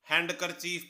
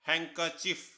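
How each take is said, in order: First: A d sound is heard after 'han'. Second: No d sound is heard after 'han'. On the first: The speaker calls it wrong. "हम सभी इसे हैंडकरचीफ पढ़ते हैं" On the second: The speaker calls it right. "इस word में डी आपका silent है"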